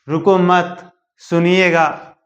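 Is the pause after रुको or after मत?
after मत. The pause comes right after मत.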